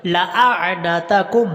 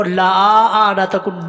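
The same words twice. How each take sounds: First: Slow chant with a short لام; لأعنتکم recited slowly, لا kept short; correct recitation. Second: لا آنتکم with the لا drawn long; لا آنتکم demonstrated wrongly; wrong reading shown. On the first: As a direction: recite لأعنتکم without lengthening the lam. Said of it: "لام کو لمبا نہیں یہاں پر کرنا". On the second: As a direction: stretch لا in لا آنتکم, as the mistake. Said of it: "لا آنتکم نہیں پڑھنا". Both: Shown as a demonstration.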